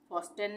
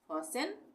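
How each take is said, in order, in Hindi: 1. t की ध्वनि बीच में बोली जाती है। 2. t की ध्वनि पूरी तरह छोड़ दी जाती है। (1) "फॉस्टेन नहीं पढ़ेंगे" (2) "इसको हम पढ़ेंगे फॉसेन"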